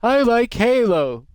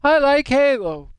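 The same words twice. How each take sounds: First: High, loud, slow squeak; sudden squeaky exclamation; odd squeaky voice. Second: Much higher, loud, slow squeak; exaggerated squeaky exclamation; odd squeaky voice again. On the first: Acted. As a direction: blurt it in a silly squeaky voice. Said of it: "I said it like that". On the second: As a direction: redo it in the silly squeaky voice. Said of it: "I don't know why I said it like that".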